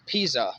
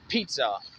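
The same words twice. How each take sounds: First: The first syllable sounds like 'piz' with a z. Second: The first syllable sounds like 'Pete' with a t. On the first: The speaker calls it right. "It should be pronounced as pizza" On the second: The speaker calls it wrong. "how y'all getting Pete, like with a T in it"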